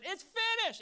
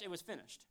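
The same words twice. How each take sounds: First: Loud, high proclamation; triumphant shouted declaration; final verdict. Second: Said in the usual way. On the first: Acted. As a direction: shout it as the gavel falls. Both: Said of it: "When the gavel went down".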